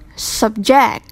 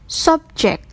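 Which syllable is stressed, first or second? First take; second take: second; first. First: The stress is on the second syllable. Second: The stress is on the first syllable. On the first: It is used as a verb. "verb, the second syllable" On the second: It is used as a noun. "For noun, the stressive on first syllable"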